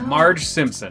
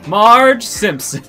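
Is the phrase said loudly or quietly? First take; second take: quietly; loudly. First: The phrase is said at a quieter volume. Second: The phrase is said at a louder volume.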